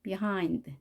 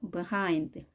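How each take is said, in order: First: The first syllable is said weakly. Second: The first syllable is said weakly.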